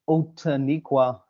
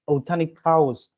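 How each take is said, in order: First: The name ends with a 'kwa' sound. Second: The name ends with a 'kaus' sound. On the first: This is the common Afrikaans form of the name. The speaker calls it wrong. "like people pronounce it in Afrikaans" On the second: This is the original form meaning people of old honey. The speaker calls it right. "It's Outaniqaus"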